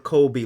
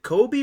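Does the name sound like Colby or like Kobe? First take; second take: Colby; Kobe. First: It is said with an L sound, like Colby. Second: It is said without an L sound. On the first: The speaker calls it wrong. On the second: The speaker calls it right.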